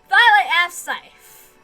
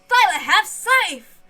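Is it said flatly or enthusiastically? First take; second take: flatly; enthusiastically. First: It is said flatly, without enthusiasm. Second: It is said with enthusiasm and energy.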